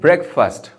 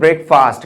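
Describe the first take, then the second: First: The second syllable does not sound like 'fast'. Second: The second syllable sounds like the word 'fast'. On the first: The speaker calls it right. "This is ब्रेकफास्ट, not फास्ट" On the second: The speaker calls it wrong. "This is not ब्रेकफास्ट"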